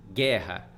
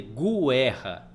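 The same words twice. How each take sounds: First: Said in the usual way. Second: "guerra" said as goo-EH-ha, u voiced; "guerra" with an extra oo after the g; wrongly sounded u. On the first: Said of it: "Você vai escrever guerra". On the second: Shown as a demonstration. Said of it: "Você não vai escrever guerra".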